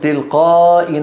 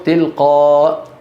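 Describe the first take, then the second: First: The final hamza carries a vowel into the next word. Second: The word ends on a bare stop, no vowel. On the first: The reading continues without stopping. "في الوصل" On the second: The reader pauses on this word. "وعند الوقف"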